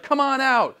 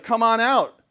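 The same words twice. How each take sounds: First: Taunting. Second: Higher, louder jeering call; taunting gods. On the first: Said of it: "He's like". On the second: Teacher voicing Ahab taunting the gods, jeering. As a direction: dare them to come out. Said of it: "He's taunting them". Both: Retold or imitated.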